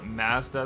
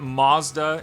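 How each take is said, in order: First: Mazda is said the way Canadians say it. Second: Mazda is said the way Americans say it.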